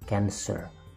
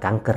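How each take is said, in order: First: It is said with English sounds, like kansser. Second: It is said with Indonesian sounds, like kanker. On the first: It means the zodiac sign. The speaker calls it right. "Dalam bahasa Inggrisnya berarti Cancer" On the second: It means the disease. The speaker calls it wrong. "bukan kanker ya"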